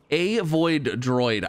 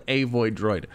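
First: "A void droid" spelled out slowly, each word apart; careful enunciation. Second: Said in the usual way. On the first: Shown as a demonstration. Player struggling with the item name, slow careful enunciation. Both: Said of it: "I don't know why that's so hard to say".

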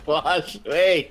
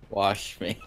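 First: Higher, louder, laughing it out. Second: Said in the usual way. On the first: Real, not acted. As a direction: say it while cracking up. Laughing through the repeat.

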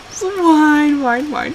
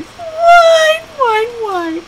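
First: Higher, drawn-out whine sinking down; teasing mock whine. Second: Piercingly high, stretched mock whine; teasing mock whine. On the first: Owner imitating her crying dog, teasing whine. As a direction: whine along to tease the dog. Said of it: "So that's what I would do". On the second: Owner mocking her dog's crying, high whine. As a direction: imitate a crying dog up high. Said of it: "she'd just sit there and she'd cry".

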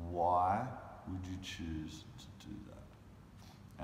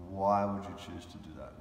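First: Slow pleading challenge. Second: Said in the usual way. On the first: Retold or imitated. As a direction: drag out "Why would you choose", very slowly. Repeats the challenge, drawn out.

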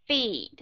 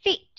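First: "feet" drawn out, like "feed"; long vowel. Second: "feet" with the vowel cut short; quick "feet" with a voiceless ending. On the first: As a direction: stretch the vowel of "feet" before a d. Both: Shown as a demonstration. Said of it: "Bất cứ cái chữ nào".

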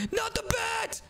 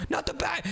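First: Very high, shouted plea; terrified shout. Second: Higher, frightened plea; alarmed plea. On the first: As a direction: scream at the bat. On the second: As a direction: recoil from the bat. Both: Acted. Elf threatens with a bat.

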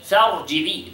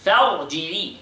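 First: "فارجعي" again with a heavy ra and a falling end. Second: "فارجعي" with a thick, heavy ra. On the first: Teacher's second take of the word, falling. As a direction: repeat "فارجعي" closing it down. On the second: Teacher repeating the word to show the ra. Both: Shown as a demonstration. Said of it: "The ra is heavy".

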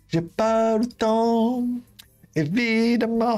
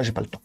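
First: Slow sing-song drawl. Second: Said in the usual way. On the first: Shown as a demonstration. Vlogger teasing his viewers about his busy schedule, slow playful drawl. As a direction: stretch it out slowly, up high and playful.

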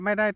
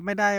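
No difference in how they are said.

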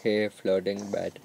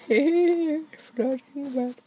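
First: Said in the usual way. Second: Much higher, cutesy voice; sweet high voice to a pet bed; squeaky greeting. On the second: Pretend.

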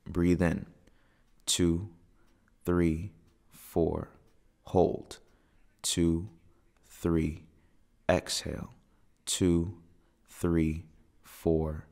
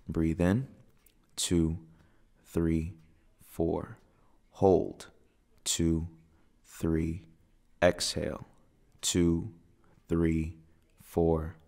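Both takes have the same delivery.

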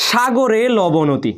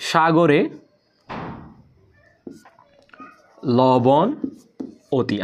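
First: Slow, rhythmic chant of সাগরে লবণ অতি; mnemonic chant. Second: সাগরে, লবণ, অতি each said alone with long pauses between; word by word. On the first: Teacher reciting the memory poem to students, slow sing-song chant. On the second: Teacher breaking the rhyme into words for students, long pauses between words. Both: Shown as a demonstration. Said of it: "একটা technical কবিতা স্টুডেন্টকে বলি".

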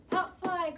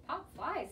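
First: High, loud ball-field call. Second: Said in the usual way. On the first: A narrator's reading. Pitcher calling a pop fly, calling out high and loud. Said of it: "called the pitcher". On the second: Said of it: "said Amelia Bedelia".

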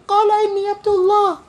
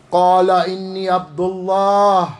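First: Put-on very high-pitched, quick baby voice reciting. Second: Measured recitation. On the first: Preacher wondering how the newborn sounded, mock baby voice. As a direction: pipe it up like a tiny baby reciting Arabic. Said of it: "say it in the baby voice". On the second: Acted. Preacher quoting the newborn's first words, measured recitation. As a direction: recite it steadily in your own register, stretching the last word. First take, against baby voice.

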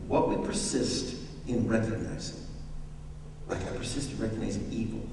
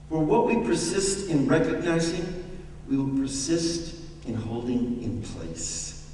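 First: "What we persist in recognizing" again, softer and hushed; a quieter, deliberate restatement; emphatic repeat. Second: Said in the usual way. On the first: Shown as a demonstration. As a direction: lean in and hush the repeat. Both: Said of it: "I'm gonna say that again".

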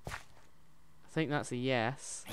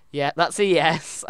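First: Said in the usual way. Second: Loud, drawn-out, delighted yes; excited confirmation. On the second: Real, not acted. Player confirms the answer is a yes, excited. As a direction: belt it out slowly, higher and sure.

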